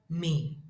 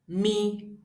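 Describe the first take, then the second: First: The nasal is said on a low pitch. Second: The nasal is said on a mid pitch. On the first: "Let us look at the example of the low tone" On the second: "that is mi, mi. There is no tonal mark on it because it is the middle tone"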